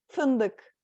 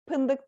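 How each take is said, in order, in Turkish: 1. Kelime f sesiyle başlıyor. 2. Kelime p sesiyle başlıyor.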